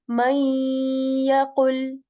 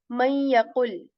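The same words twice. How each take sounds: First: A nasal sound is held going into ya. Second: It is said quickly without a held nasal. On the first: The speaker calls it right. "keeping the nasal of noon by staying on the letter ya and making a nasal sound" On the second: The speaker calls it wrong. "I'm not saying man yaqul"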